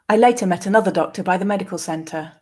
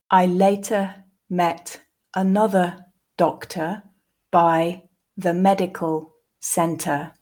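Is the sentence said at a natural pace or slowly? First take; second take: natural; slowly. First: The sentence is said at a natural pace. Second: The sentence is said slowly. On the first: "and then twice more at a more natural pace" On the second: "the first time slowly"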